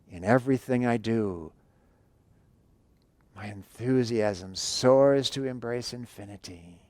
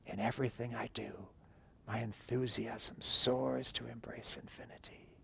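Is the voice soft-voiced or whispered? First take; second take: soft-voiced; whispered. First: It is spoken softly with voice. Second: It is whispered without voice.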